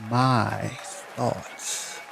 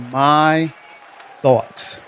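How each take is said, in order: First: Breathy dramatic whisper of title. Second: Said in the usual way. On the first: Shown as a demonstration. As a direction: whisper it like a secret. Announcing poem title twice.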